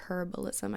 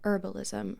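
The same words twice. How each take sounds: First: The first H sound is clearly pronounced. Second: The first H sound is silent.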